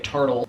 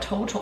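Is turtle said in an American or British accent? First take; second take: American; British. First: It is said in an American accent. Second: It is said in a British accent.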